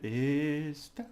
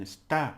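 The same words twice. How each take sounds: First: "Esta" with a long, high "Es"; held first syllable. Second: "está" with a strong stab on "tá"; stress on final syllable. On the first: Teacher demonstrating holding it a bit, held first syllable. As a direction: stretch the "Es" of "Esta" before "ta". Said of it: "You just hold it a bit". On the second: Teacher contrasting with held esta, stress on final syllable. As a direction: punch the end of "está". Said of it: "like a little stabbing at the end". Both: Shown as a demonstration.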